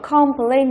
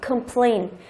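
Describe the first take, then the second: First: The first syllable has a full vowel. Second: The first syllable has a reduced vowel. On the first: The speaker calls it wrong. "Từ đó không đọc là complain" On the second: The speaker calls it right. "Âm đầu tiên đọc là cơm"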